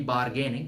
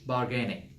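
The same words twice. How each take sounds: First: The R sound is fully pronounced. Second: The R sound is only lightly hinted. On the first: The speaker calls it wrong. "ideally it should not be bargaining" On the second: The speaker calls it right. "Half R, half H"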